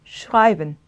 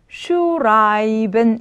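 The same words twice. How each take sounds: First: Said in the usual way. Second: 슈라이벤 drawn out slowly, shu-rai-ben; syllable by syllable. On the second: Shown as a demonstration. Teacher breaks the word down for students, slow syllables. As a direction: stretch each syllable of 슈라이벤. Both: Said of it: "이렇게 되겠죠?".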